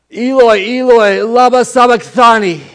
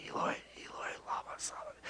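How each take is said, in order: First: Slow, high, full-voiced cry; loud cry. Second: Barely audible whisper; under the breath. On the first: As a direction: cry it out loud, drawing out the words. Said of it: "he says it in a loud voice". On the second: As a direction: whisper it quietly to yourself. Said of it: "say it quietly under his breath". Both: Shown as a demonstration.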